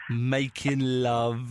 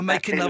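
First: The phrase is spoken slowly and drawn out. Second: The phrase is spoken at a normal pace.

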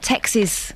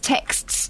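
First: The word ends with the syllable 'ksiz'. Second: The word ends with the cluster 'ksts'. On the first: The speaker calls it wrong. "not texes" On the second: The speaker calls it right. "text, plural, is texts"

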